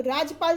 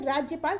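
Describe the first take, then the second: First: राजपाल with no y glide; wrong pronunciation. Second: Said in the usual way. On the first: Shown as a demonstration. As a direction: say राजपाल as raj-pal, two syllables. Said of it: "जैसा कोई शब्द नहीं होता". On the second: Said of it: "राज्यपाल शुद्ध है".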